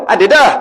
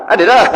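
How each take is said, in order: The two takes are said the same way.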